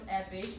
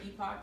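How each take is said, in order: First: The word ends in an 'ick' sound. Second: The word ends in a 'pock' sound. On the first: This is the standard pronunciation. "the word is pronounced epic" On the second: This is the preferred, quirky pronunciation. "We just preferred the pronunciation epoch"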